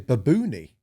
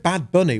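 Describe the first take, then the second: First: The name is said with Spanish-style vowels. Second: The name is said with English vowels. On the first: "we're supposed to say Baboony" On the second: "instead of [name]"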